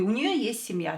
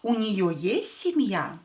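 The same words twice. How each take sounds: First: It is said with flat statement intonation. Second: It is said with questioning intonation. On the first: She has a family. "as a statement without a uh, question mark" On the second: Does she have a family? "with a question mark, use your intonation"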